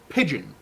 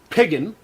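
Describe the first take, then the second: First: The middle consonant is a soft J sound. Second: The middle consonant is a hard G sound. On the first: The speaker calls it right. "there's a very soft D in that word" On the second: The speaker calls it wrong. "You don't say piggin"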